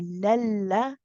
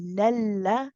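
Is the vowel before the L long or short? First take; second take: short; short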